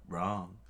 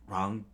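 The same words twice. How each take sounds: First: Wrong. level and flat, falling as a statement; Wrong. as a flat final statement. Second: Wrong? rising as a doubtful question; Wrong? said with a rising questioning tune. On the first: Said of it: "screamed out". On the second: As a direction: ask Wrong? with an upward lift. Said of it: "And screamed out, Wrong". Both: Acted.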